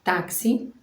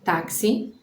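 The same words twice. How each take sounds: No difference in how they are said.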